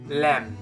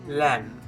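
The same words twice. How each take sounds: No difference in how they are said.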